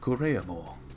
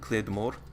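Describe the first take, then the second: First: It is pronounced with Japanese-style syllables. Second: It is pronounced in plain English. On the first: "phonetic Japanese" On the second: "which is a Scottish term"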